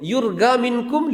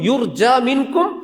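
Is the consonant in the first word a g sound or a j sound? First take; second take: g sound; j sound. First: The first word has a hard g sound. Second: The first word has a j sound. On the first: This is the local Egyptian form. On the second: This is the standard Arabic form.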